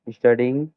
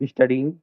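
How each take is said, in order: Both takes have the same delivery.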